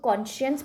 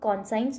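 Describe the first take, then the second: First: The middle syllable is said with 'sh'. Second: The middle syllable is said 's' plus 'eye'. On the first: The speaker calls it right. "इस word को हम लोग कॉन्शियंस पढ़ेंगे" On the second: The speaker calls it wrong. "इस word को हम लोग कॉन्साइंस नहीं पढ़ेंगे"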